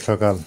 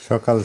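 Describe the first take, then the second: Both takes have the same delivery.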